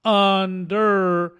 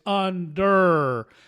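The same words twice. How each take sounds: No difference in how they are said.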